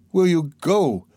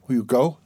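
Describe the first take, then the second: First: High-pitched, insistent demand; urgent pleading. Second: Said in the usual way. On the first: A narrator's reading. Sonia snatching his hands, urgently pleading. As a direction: press the question with fervour. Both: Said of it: "she asked him, trembling all over".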